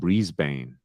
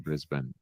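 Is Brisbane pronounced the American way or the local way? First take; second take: American; local. First: It is pronounced with an American pronunciation. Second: It is pronounced with a local Australian pronunciation. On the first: The speaker calls it wrong. "like a lot of Americans saying" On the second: The speaker calls it right. "rather than"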